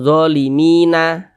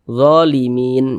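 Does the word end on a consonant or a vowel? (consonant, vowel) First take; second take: vowel; consonant. First: A short vowel is added after the final n. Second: The final n is silent-voweled, ending the word. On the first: The speaker calls it wrong. "Jangan zolimina" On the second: The speaker calls it right. "kita baca zolimin"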